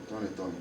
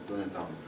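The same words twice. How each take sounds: The two takes are said the same way.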